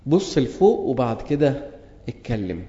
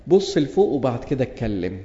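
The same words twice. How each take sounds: First: Slower, leaning on لفوق; slow emphatic repeat. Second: Said in the usual way. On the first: Shown as a demonstration. Preacher urging the congregation, slow and emphatic. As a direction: drive the lesson home word by word.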